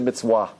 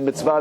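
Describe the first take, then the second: First: The word is said with a W sound. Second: The word is said with a V sound. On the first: "they say a, a W there" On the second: This is the usual pronunciation. "they don't say the va"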